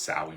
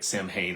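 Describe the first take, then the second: First: The word is said unlike its spelling. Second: The word is said the way it is spelled. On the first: The speaker calls it right. "but it's pronounced" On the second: The speaker calls it wrong. "it looks like"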